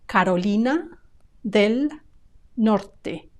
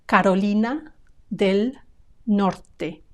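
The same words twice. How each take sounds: First: The three words are said separately with pauses. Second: The three words are said separately with pauses.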